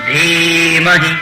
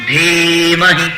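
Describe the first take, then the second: Both takes have the same delivery.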